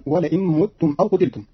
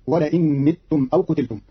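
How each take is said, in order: First: Said in the usual way. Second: "متم" pronounced mittum; kasra on the meem. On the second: Shown as a demonstration. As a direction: put a short i in the first syllable of "متم". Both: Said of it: "بكسر ضم الميم".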